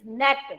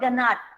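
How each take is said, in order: First: The G is silent; it starts with N. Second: A G sound is pronounced before the N. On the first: The speaker calls it right. "It is net" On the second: The speaker calls it wrong. "It is not ganat"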